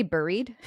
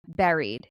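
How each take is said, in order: First: Buried said as BURR-eed, with an r-coloured vowel like in bird; intended pronunciation. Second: Buried said as BERR-eed, rhyming with berry; mispronounced word. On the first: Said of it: "I wanted to say buried". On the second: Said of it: "I always say this word wrong". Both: Shown as a demonstration.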